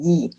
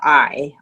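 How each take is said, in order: First: The word is said with an 'ee' vowel. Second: The word is said with an 'eye' vowel. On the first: The speaker calls it right. "I want to use E" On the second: The speaker calls it wrong. "the pronunciation is not accurate"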